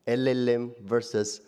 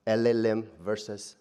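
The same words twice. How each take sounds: The two takes are said the same way.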